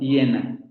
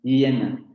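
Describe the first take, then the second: First: The first sound is a palatal glide. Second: The first sound is a palatal glide.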